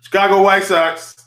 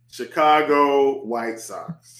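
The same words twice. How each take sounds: First: Fast, high, loud burst of passion; excited, punchy shout-out; passionate. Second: Drawn out slowly, word by word; slow, measured delivery at usual pitch; slow repeat. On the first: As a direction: fire it out with passion, quick and loud. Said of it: "Said that with passion, and he said it fast". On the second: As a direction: repeat it at half speed, savouring each word. Same pick repeated slowly after passionate take. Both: Real, not acted.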